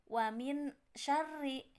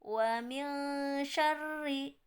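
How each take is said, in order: First: The n is a clear, full n sound. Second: The n is a hidden, nasal ng sound. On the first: The speaker calls it wrong. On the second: The speaker calls it right. "ketika dibaca nunnya jadi eng"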